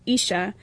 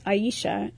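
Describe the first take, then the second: First: The name is said with two syllables. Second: The name is said with three syllables. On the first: The speaker calls it right. "instead of the two" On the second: The speaker calls it wrong. "pronounced my name with three syllables"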